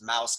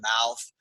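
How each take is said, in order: First: The word ends with an s sound. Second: The word ends with a th sound. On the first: "Chinese people will pronounce it mouse" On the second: "They can't say the word mouth"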